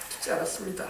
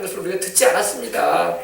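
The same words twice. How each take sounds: First: Whispered echo. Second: Said in the usual way. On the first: Shown as a demonstration.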